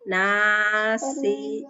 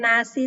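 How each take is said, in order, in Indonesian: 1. Vokal setelah n itu panjang. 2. Vokal setelah n itu pendek. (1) "nunnya dibaca panjang" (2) "Bukan nasi sayang"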